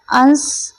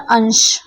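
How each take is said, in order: First: अंश said with a plain s sound at the end. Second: अंश said with a sh sound at the end. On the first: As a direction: say अंश as "ans", with a dental s. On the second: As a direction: say अंश as "ansh". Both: Shown as a demonstration. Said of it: "बोलने, सुनने में एक से".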